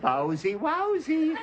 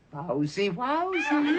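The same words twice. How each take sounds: First: High squeaky wowsy repeated through laughter; laughing camp dog cry; mock effeminate dog. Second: High squealing wowsy, a camp dog voice; squeaky camp dog cry; mock effeminate dog. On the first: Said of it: "don't you get it". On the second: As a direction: yelp it like a prissy dog. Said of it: "and goes".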